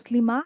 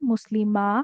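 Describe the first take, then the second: First: The final vowel is cut off quickly. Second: The final vowel is drawn out longer. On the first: "জলদি শেষ করে দিলাম আমি" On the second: "শেষে পড়তে গিয়ে একটু টান দিলাম, একটু সময় নিলাম"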